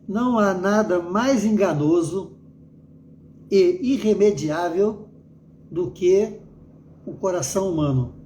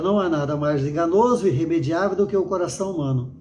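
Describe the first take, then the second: First: It is read slowly, with pauses. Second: It is read a little faster. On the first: "eu li mais pausadamente" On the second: "vou ler um pouquinho mais rápido"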